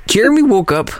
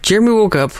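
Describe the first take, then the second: First: Wired, high excited call; too much caffeine. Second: Wired, high excited repeat; bouncing off the walls; too much caffeine. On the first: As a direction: say it buzzing with energy. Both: Real, not acted. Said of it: "I'm so wired right now".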